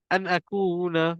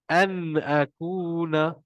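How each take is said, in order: First: The n sound is clipped very short. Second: The n sound is held a moderate length. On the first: The speaker calls it wrong. "jangan pendek sangat" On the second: The speaker calls it right. "dia segenggam juga bunyi dia"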